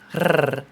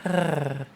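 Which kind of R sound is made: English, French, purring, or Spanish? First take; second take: Spanish; purring. First: A rolled Spanish-style R sound. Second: A purring, cat-like R sound. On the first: "the Spanish R" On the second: "the purring noise, which is like a R"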